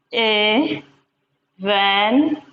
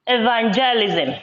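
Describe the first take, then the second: First: "Evangelism" drawn out very slowly; very slow "Evangelism" for the class; slow syllable split. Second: Said in the usual way. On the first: Shown as a demonstration. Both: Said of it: "This has five syllables".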